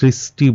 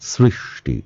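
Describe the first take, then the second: First: The middle sibilant is a plain s sound. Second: The middle sibilant is an sh sound. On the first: The speaker calls it wrong. "আমরা সৃষ্টি বলবো না" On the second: The speaker calls it right. "আমরা বলবো সৃষ্টি"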